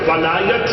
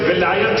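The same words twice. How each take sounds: First: The first vowel is an 'a' sound. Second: The first vowel is an 'i' sound. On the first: "ایک لفظ ولایت ہے زبر کے ساتھ" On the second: "ایک لفظ ولایت ہے زیر کے ساتھ"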